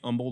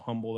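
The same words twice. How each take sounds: First: The initial H sound is silent. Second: The initial H sound is pronounced. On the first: The speaker calls it right. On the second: The speaker calls it wrong.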